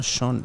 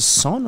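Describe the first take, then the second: First: "Sean" with a sh sound at the start; Sean said as "shawn". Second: "Sean" with a plain s sound at the start; Sean said as "sawn". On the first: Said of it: "I'm gonna call him Sean". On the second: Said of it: "is it Sean or Sean". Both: Shown as a demonstration.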